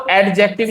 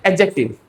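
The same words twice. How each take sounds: First: एडजेक्टिव as ad-jective, with an audible D; एडजेक्टिव with its D spelled out in the sound. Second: एडजेक्टिव as a-jective, D left out; silent D. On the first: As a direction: pronounce the D before the J in एडजेक्टिव. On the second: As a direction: skip the D in एडजेक्टिव. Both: Shown as a demonstration. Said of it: "डी silent है".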